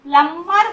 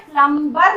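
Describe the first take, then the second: First: "प्लम्बर" with the B silent, a held M; "प्लम्बर" pronounced plummer. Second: "प्लम्बर" with an audible B after the M; "प्लम्बर" mispronounced with B sounded. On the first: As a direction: say "प्लम्बर" as plum-mer, no B. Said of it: "प्लम्बर बोलते हैं". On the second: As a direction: say "प्लम्बर" as plum-ber, voicing the B. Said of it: "नहीं बोलते हैं". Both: Shown as a demonstration.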